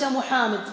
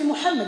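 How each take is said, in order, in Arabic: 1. الحركات ممدودة وطويلة. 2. الحركات قصيرة وغير ممدودة. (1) "وليس محمد تمده" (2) "اسمي محمد"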